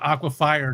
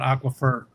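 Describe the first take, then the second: First: The last part sounds like the word fire. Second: The last part sounds like fur, not fire. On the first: This is how the speaker has always said it. "I've always called aquafire" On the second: This is how others say it. "not aquifer"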